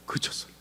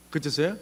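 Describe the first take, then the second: First: 그쳤어요 as a softened statement, no rise; hushed answer 그쳤어요. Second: 그쳤어요 as a question, rising at the end. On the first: Telling the congregation rain stopped, hushed statement of 그쳤어요. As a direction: drop 그쳤어요 softly as the reveal. Answer to own suspenseful question. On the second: Asking the congregation whether rain stopped, rising question on 그쳤어요. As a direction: ask 그쳤어요 with an upward lilt. Asks audience, then answers. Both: Acted.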